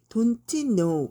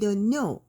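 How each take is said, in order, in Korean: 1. 두 단어를 따로, 또렷하게 발음해요. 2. 두 단어가 붙어서 한 덩어리로 발음돼요. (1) "발음을 don't know 이렇게 하는 거는 그 뭐지? 너무 없어 보이지 않아요?" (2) "얘가 둘이 소리가 이렇게 합쳐진단 말이야"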